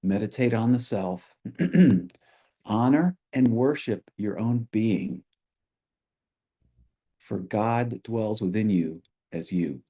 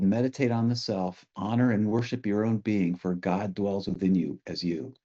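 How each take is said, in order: First: The quote given phrase by phrase, with pauses; contemplative repeat. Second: Said in the usual way. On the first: Real, not acted. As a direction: let each phrase of the teaching settle before the next. Same quotation repeated for contemplation.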